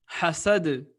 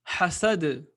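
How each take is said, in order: No difference in how they are said.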